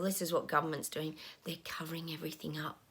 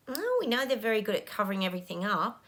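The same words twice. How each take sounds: First: Voiceless whisper, much softer; hushed confiding whisper. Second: Said in the usual way. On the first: Real, not acted. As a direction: lean in and whisper the secret. Confides government cover-up in hushed tone.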